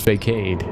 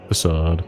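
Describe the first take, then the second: First: The middle consonant is a hard k sound. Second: The middle consonant is an s sound. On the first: The speaker calls it wrong. "I've been pronouncing it Fakeade until now" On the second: The speaker calls it right. "I guess I'm fine to switch on that"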